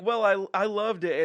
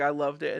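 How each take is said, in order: First: Lightly imitating her insistent reply; a hint of her defensive voice; lightly voiced woman. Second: Lightly imitating his lower-pitched reply; a hint of his voice; lightly voiced man. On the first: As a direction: imitate her protest, a touch emphatic. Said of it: "she's like". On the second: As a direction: imitate his answer, settling a little deeper. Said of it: "he's like".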